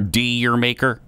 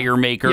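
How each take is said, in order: First: The first part sounds like dee-year. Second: The first part sounds like dire. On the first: "A lot of people pronounce that every which way" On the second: "A lot of people pronounce that every which way"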